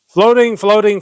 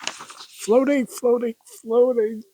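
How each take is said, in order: First: Loud, raised-pitch recitation; declaimed refrain, pushed high and loud; emphatic poem chorus. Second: High, softened voice holding in giggles; trying not to laugh. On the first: Acted. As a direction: belt out the repeated word. Recites chorus before cracking up. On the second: Real, not acted. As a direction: squeeze the words out past a laugh. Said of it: "I'm trying not to laugh".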